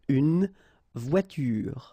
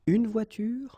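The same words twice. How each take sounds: First: Final vowel sounds are voiced after the consonants. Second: Words end on the consonants with no vowel. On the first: The speaker calls it wrong. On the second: The speaker calls it right.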